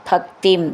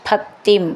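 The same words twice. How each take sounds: No difference in how they are said.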